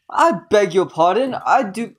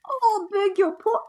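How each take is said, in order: First: A mock posh British accent, louder. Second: Put-on very high, slow squawky British accent; bird British accent. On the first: Streamer voicing the old man's lines, mock British accent. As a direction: ham up an old British gentleman. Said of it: "I hate the British accent". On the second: Streamer retries the old man as a birdlike British voice. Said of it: "that's like a bird, bird British".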